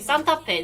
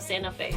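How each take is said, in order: First: It is said with a Korean pronunciation. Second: It is said with an English pronunciation. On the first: The speaker calls it right. "you gotta say Santa Fe" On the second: The speaker calls it wrong. "instead of Santa Fe"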